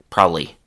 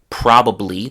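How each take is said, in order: First: The word is shortened with syllables dropped. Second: Every syllable is fully pronounced. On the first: "Instead, they say probably" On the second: "the way it's written on the page"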